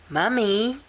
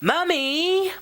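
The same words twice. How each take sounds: First: The word is said very quietly. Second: The word is said somewhat louder.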